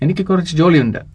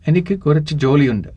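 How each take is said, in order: First: It is said at normal speed. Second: It is said a little slowly.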